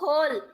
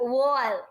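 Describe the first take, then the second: First: The word begins with an h sound. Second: The word begins with a w sound. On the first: The speaker calls it right. "તો હોલ" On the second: The speaker calls it wrong. "Not વોલ"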